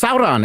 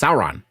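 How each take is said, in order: First: The R in the name is rolled. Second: The R in the name is plain. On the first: The speaker calls it right. "It's it's pronounced Sauron" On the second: The speaker calls it wrong. "It's not pronounced Sauron"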